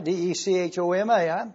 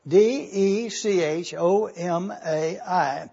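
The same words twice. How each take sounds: First: Letters rattled off briskly; quick spelling. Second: Slow, letter by letter; deliberate spelling. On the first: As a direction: spell it out quickly in one run. First spelling of the Greek word. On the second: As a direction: spell it out slowly so everyone can follow. Spells it again for careful looking. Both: Real, not acted.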